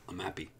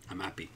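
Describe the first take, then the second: Both takes have the same delivery.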